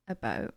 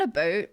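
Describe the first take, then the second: First: "about" with a subtle raised Canadian vowel; Canadian pronunciation. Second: "about" said as a broad "a-boot"; exaggerated Canadian pronunciation. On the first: Retold or imitated. Imitating how Canadian viewers talk, subtle Canadian "about". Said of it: "I can hear it when you guys talk". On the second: Shown as a demonstration. Showing what is too intense, exaggerated Canadian "about". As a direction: overdo the Canadian vowel in "about". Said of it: "it's not super intense".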